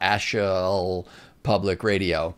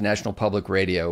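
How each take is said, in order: First: The word is said without its N sounds. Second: The word is said with its N sounds.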